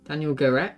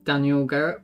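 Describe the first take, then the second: First: The surname is said in a Portuguese accent. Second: The surname is said in an English accent.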